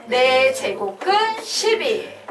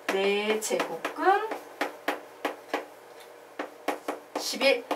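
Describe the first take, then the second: First: Slow, firm chant of "네 제곱근십일"; full-voiced, measured "네 제곱근십일" for repeating; choral drill reading. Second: Very slow, softer "네 제곱근십일" with a long pause before "십일"; demonstrated slow reading. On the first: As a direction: lead the class through "네 제곱근십일", stretching "네". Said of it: "뭐라고 읽을 거야?". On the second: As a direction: quietly spell out "네 제곱근십일", halting midway. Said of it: "요런 식으로 읽는 거예요". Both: Shown as a demonstration.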